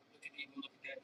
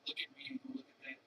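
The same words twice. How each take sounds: First: Barely audible mocking echo; quiet mock taunt. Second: Hushed, quick whispered taunt; fast breathy mock whisper; mocking gawker. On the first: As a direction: let it fade into a hushed mutter. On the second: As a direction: whisper it like a gawking customer. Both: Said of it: "people would come in and look and go".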